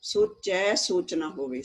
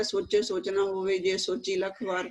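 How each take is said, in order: First: Slow ਸੋਚੈ with an open ai vowel; careful correct recitation, ਸੋਚੈ not ਸੋਚੇ; correct reading. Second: ਸੋਚੇ read with a plain e vowel, hurried; the careless rushed reading, ਸੋਚੇ instead of ਸੋਚੈ; quick reading that says ਸੋਚੇ with a narrow e; hasty wrong reading. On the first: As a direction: read ਸੋਚੈ carefully, slowly, stretching the open ai. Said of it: "ਇਹ ਹੈ ਸੋਚੈ". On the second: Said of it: "ਕਾਹਲੀ ਚ ਪਾਠ ਕਰਦੇ". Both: Shown as a demonstration.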